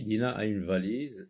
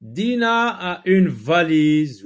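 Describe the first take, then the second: First: Said in the usual way. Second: Slow, loud, high-pitched sentence reading; model reading aloud. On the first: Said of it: "on a dit". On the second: Shown as a demonstration. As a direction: read it out slowly to the class. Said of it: "Relis les phrases".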